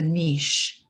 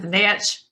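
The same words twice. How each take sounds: First: The word is said in a posh, refined manner. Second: The word is said in a plain, ordinary manner. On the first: "Like we're smarter"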